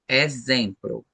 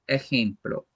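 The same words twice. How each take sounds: First: The x is said with a z sound. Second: The x is said without a z sound. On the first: The speaker calls it right. "com esse som do Z" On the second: The speaker calls it wrong. "nós não falamos exemplo"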